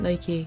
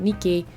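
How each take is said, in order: First: It is pronounced the way the shoe brand says it. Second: It is pronounced the way the goddess's name is said. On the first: This is how the trainer company says the name. The speaker calls it wrong. "they pronounce it Nike" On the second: This is how the goddess's name is said. The speaker calls it right. "not Nike"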